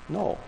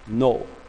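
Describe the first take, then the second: First: The word is said more quietly. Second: The word is said at normal loudness.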